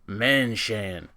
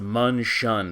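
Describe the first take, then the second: First: The first syllable sounds like 'men'. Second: The first syllable sounds like 'mun'. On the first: The speaker calls it wrong. "Every Davion apologist and slack-jawed Turian yokels are going to call this thing the" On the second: The speaker calls it right. "But it's pronounced"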